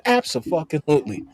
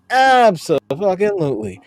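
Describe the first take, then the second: First: Said in the usual way. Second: Abso-fucking-lutely stretched out, with the fucking punched; drawn-out emphatic repeat. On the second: Shown as a demonstration.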